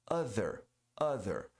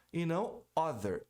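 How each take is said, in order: First: Other with a voiced TH, tongue between the teeth; correct other. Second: Other said with a hard D for the TH; wrong other. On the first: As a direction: buzz the TH in Other. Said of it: "você produz um som de Z". (other correto com TH sonoro) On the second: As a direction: say other as "oder", no TH. (other errado com som de D) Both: Shown as a demonstration.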